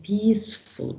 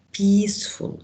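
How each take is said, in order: First: Said in the usual way. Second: "Peaceful" enunciated clearly, both syllables distinct; mouth-shape demonstration. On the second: Shown as a demonstration. Teacher showing students the mouth moving on "Peaceful", carefully enunciated. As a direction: show the mouth opening change on "Peaceful". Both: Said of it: "Look at my mouth".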